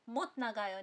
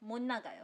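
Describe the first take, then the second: First: The first word ends in a t sound. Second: The first word ends in an n sound. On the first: The speaker calls it wrong. "नहीं" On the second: The speaker calls it right. "तो ... नहीं 못 나가요"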